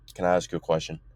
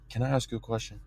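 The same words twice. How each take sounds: First: It is said in a firmer, less soft voice. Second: It is said in a soft, gentle voice. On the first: The speaker calls it right. "It was just like that" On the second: The speaker calls it wrong. "That that sounded soft"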